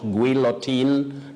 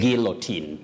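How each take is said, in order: First: A W-like sound follows the G. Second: No W-like sound follows the G. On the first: The speaker calls it wrong. "not guillotine" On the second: The speaker calls it right. "Letter U is not pronounced"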